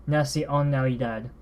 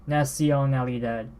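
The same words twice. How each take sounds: Both takes have the same delivery.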